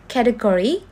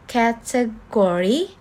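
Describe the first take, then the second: First: Said in the usual way. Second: Slow "Category", ca-te-go-ry; syllable by syllable. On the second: Shown as a demonstration. Teacher showing a four-syllable word, "Category" slowly syllable by syllable. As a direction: draw "Category" out in four separate beats. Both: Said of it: "that has four syllable".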